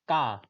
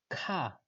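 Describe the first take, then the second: First: The K is said the Estonian way. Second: The K is said the English way. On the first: "like Kartur, Kadrioruk, ka, this ka" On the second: "But this is ka, ka, like this"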